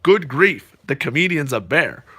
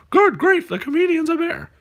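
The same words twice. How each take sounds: First: Said in the usual way. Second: Much higher Muppet voice on Good grief; high cartoon take on the line; puppet punchline voice. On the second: Shown as a demonstration. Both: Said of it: "you're supposed to go".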